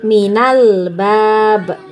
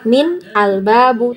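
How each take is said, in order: First: The words run together as 'minal'. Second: The 'al' is sounded as a separate syllable. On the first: The speaker calls it right. "tapi minal bab ya" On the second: The speaker calls it wrong. "maka kita tidak bacanya min al-babu"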